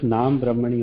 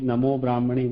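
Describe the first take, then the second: First: The first word ends in a short a sound. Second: The first word ends in an o sound. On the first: The speaker calls it right. "सिर्फ नाम ब्रह्मणी होता है" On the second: The speaker calls it wrong. "कोई नमो ब्राह्मणी बोलता है"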